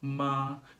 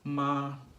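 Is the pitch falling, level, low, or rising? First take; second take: level; level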